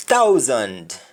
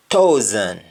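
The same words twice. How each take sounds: First: THOUSAND as "tau-zand", D sounded; English-style THOUSAND, full "and"; English pronunciation. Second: THOUSAND as "tow-zn", no D; Jamaican pronunciation. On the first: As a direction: finish THOUSAND on a clear D. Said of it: "ends with N D in English". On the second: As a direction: drop the D of THOUSAND. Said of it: "You only stop at N". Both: Shown as a demonstration.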